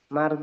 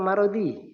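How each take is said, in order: First: No vowel is heard between r and d. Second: A short vowel is heard between r and d. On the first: The speaker calls it wrong. "ro-nya disukun" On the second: The speaker calls it right. "Fathah, fathah"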